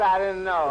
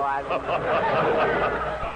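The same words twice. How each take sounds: First: Said in the usual way. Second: Laughing. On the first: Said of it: "first take". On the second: Real, not acted. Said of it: "repeats line with laugh".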